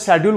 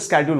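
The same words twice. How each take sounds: First: It is said with a British accent. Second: It is said with an American accent.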